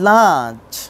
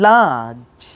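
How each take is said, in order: Both takes have the same delivery.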